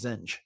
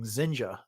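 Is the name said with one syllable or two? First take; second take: one; two. First: The name is said as one syllable. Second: The name is said as two syllables. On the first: This is how the speaker had always said it. "I just always pronounced that as Zenj" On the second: This is how the audio version said it. "they were clearly saying Zenja"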